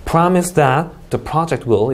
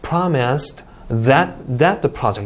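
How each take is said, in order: First: "Promise that the project will" run on without a break; slow, connected demo of "Promise that the project will"; linked reading. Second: "Promised that, that the project" with a break after "Promised"; slow demo, pausing before "that the project"; broken-up reading. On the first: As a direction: read "Promise that the project will" as one group. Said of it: "사실 끊어 읽기도 중요하지 않네요". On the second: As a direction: chop "Promised that, that the project" into separate groups. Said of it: "이렇게 읽어도 상관없어요". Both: Shown as a demonstration.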